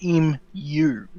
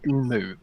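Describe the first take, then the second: First: The word ends with a 'mew' sound. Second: The word ends with a plain 'moo' sound. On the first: The speaker calls it right. "it's mew, not moo" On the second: The speaker calls it wrong. "Why do you say emu?"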